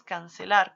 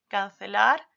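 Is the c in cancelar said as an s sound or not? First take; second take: s; not s. First: The c is pronounced as an s sound. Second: The c has a sound different from s. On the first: The speaker calls it wrong. "sino decimos cancelar" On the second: The speaker calls it right. "no decimos cancelar"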